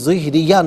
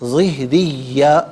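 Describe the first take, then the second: First: The y sound is short and single. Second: The y sound is held and doubled. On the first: The speaker calls it wrong. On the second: The speaker calls it right.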